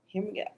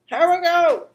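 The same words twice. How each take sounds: First: Quiet murmur. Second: High, loud kickoff shout; hyped-up call. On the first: Host getting ready to draw, quiet murmur. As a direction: say it softly to yourself. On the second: Host starting the oracle card draw, hyped-up call. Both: Real, not acted.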